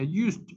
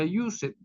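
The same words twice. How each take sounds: First: The -ed ending adds no extra syllable. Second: The -ed ending is sounded as an extra syllable. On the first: The speaker calls it right. "se pronuncia used" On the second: The speaker calls it wrong. "esa terminación ed no se pronuncia used"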